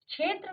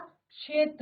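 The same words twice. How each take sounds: First: The word begins with a 'chh' sound. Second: The word begins with a 'ksh' sound. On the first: The speaker calls it wrong. "क्षेत्र नहीं होता" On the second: The speaker calls it right. "क्षेत्र होता है"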